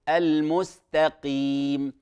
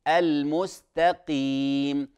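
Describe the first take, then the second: No difference in how they are said.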